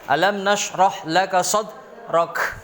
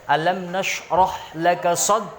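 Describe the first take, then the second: First: The final consonant ends with an echoing bounce. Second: The final consonant is cut off without bounce. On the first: The speaker calls it right. "Mantul dia" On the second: The speaker calls it wrong. "Bukan begitu"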